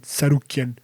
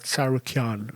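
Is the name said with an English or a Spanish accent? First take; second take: Spanish; English. First: The name is said with a Spanish accent. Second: The name is said with an English accent. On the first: "my Spanish was to say Sarukian" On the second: "in English it's someone like Sarukian"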